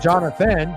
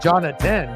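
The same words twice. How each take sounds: First: The middle consonant is a TH sound. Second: The middle consonant is a hard T sound. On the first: The speaker calls it wrong. "Not Jonathan" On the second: The speaker calls it right. "J O N A T A N"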